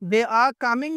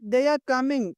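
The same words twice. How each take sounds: First: 'They are' is said as two full words. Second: 'They are' is shortened into one syllable.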